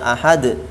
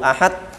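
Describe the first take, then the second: First: The final d bounces with a short echo. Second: The final d stops flat without an echo. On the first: The speaker calls it right. "Seharusnya dibaca ahad karena itu merupakan sifat yang ada pada huruf dal" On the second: The speaker calls it wrong. "Kalau tidak dibaca dengan qalqalah, hanya dibaca"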